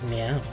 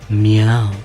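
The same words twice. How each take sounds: First: It is said in a plain voice. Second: It is said in a sexy voice.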